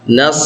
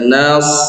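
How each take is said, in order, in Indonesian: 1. Bunyinya dipendekkan, langsung lanjut. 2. Bunyinya dipanjangkan. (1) "Nas langsung" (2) "laisa nas"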